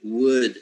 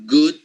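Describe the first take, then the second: First: "wood" begun on a rounded w, without any g; "wood" said slowly with a clean w onset; W-U glide. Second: "good" begun on a clear hard g; "good" said slowly, g fully closed; hard G onset. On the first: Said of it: "the U sound together". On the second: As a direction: set "good" apart with a firm g at the front. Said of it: "It's not the same saying, for example". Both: Shown as a demonstration.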